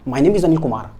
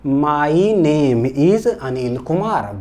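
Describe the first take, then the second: First: The sentence is spoken very fast. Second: The sentence is spoken slowly.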